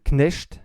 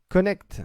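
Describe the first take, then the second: First: The surname sounds German, as one clipped syllable. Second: The surname sounds like English 'connect', with a vowel. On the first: "je le prononce à la à l'alsacienne ou à la lorraine" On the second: "comme le disent les, les Américains"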